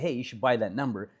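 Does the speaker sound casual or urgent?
casual. It is said in a casual, unexcited way. The speaker isn't really motivated to share it. The speaker calls it wrong. "You wouldn't say"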